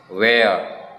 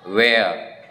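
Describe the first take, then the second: The two takes are said the same way.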